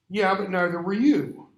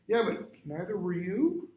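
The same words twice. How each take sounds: First: The voice falls at the end, like a statement. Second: The voice rises at the end, like a question. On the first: It is a plain statement. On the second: It carries a hint of question or doubt.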